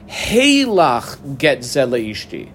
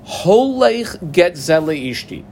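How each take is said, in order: First: "Heilach" opened with an ei sound, drawn out slowly; reading heilach. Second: "Holech" with a round o, read out slowly in chant; slow, careful "Holech", stressed and falling. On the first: Teacher marks the key word for students, slow and stressed. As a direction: stretch "Heilach" long, falling. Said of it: "I squiggle underline heilach". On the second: Teacher reads the brisa aloud, slow and stressed. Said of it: "if he said, "Heilach get ze leishti". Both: Shown as a demonstration.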